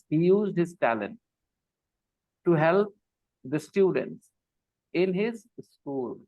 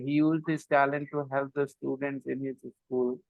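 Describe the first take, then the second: First: It is read with pauses between sense chunks. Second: It is read with all words run together. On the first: The meaning becomes easier to follow. The speaker calls it right. "there are chunks which make sense" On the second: The reader has no idea what they read. The speaker calls it wrong. "they go all words together"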